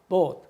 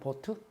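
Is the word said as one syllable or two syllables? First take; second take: one syllable; two syllables. First: One syllable, strong start and weak ending. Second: Two even syllables with an added vowel. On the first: The speaker calls it right. "앞에는 강하고 뒤에는 약하니까 보트 이래야 되는데" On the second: The speaker calls it wrong. "한국 사람들은 보트"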